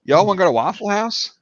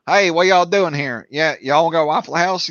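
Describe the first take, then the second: First: Subtle Eastern Tennessee twang, pitched up; lightly imitated Eastern Tennessee accent. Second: Broad Tennessee twang, pitched up; Western Tennessee accent. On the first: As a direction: ask in easy Eastern Tennessee. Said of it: "But Eastern Tennessee, it's". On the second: Retold or imitated. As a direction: hail them in thick Western Tennessee. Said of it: "Western Tennessee, yeah, they've got that".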